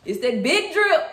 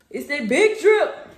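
First: Is that BIG drip, slow and loud; proud slow hype; hype emphasis. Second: It's that BIG drip, slow and loud; proud slow hype on big; hype emphasis. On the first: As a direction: lean on big drip like a flex. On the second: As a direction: stretch out big like a flex. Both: Real, not acted. Showing off new shoes.

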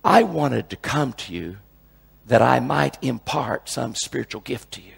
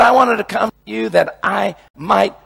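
First: Slow, lower, reverent reading; true quote. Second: Shouted, high, sarcastic misquote; mock misquote. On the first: Shown as a demonstration. Preacher giving the real Romans verse, slow and reverent. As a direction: read the real verse slowly and gently. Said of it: "it says". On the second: Preacher mocking a misreading of Romans, shouted and high. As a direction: belt out the wrong version on purpose. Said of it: "No, doesn't say that either".

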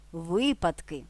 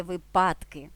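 First: Випадки stressed at the start: ВИпадки, drawn out slowly; stress on first syllable. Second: Випадки misstressed in the middle: виПАДки; stress on second syllable. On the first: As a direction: hit ВИ in випадки. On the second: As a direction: lean on ПАД in випадки. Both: Shown as a demonstration. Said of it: "а не випадки".

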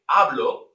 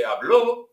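First: Hablo with stress on HA; stress on first syllable. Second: Habló with the final O stressed and rising; stress on last syllable. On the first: Teacher contrasts hablo, stressed at the start, meaning I speak. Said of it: "why accents are important". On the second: Teacher contrasts habló, stressed on the final O, meaning he spoke. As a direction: say habló, hab-LO, punch the end. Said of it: "with an accent". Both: Shown as a demonstration.

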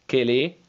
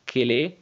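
The two takes are said the same way.

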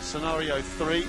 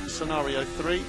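The two takes are said the same way.

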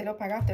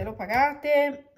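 First: Said in the usual way. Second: Slow, drawn-out "l'ho pagate" with "pagate" stressed. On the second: Shown as a demonstration. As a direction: spell out "pagate" slowly and clearly.

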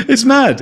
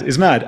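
First: High, laughing burst of disbelief. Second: Said in the usual way. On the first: Real, not acted. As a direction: laugh it out, pitched way up. Laughing disbelief right after laugh.

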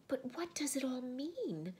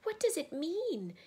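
First: Put-on high girl's voice, without shouting; calmer questioning. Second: High, loud, bewildered cry. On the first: Susan asks Aslan once calmer, high puzzled question. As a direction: ask it high but more settled. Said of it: "when they were somewhat calmer". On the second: Susan cannot understand the empty table, high loud cry. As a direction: throw the question up high. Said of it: "cried Susan". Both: A narrator's reading.

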